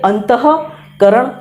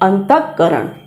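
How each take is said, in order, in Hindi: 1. विसर्ग की ह-ध्वनि पूरी तरह बोली जाती है। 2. विसर्ग की ह-ध्वनि केवल आधी बोली जाती है। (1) "इस विसर्ग का पूरा उच्चारण होना चाहिए" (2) "इस विसर्ग का हम आधे विसर्ग के रूप में उच्चारण करते हैं"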